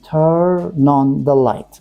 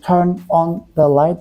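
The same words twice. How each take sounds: First: The words run together in one smooth flow. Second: Each word is said separately with small breaks. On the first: The speaker calls it right. "We should say like turn on, turn on the light" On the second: The speaker calls it wrong. "sometimes Vietnamese people say turn on the light. That's wrong"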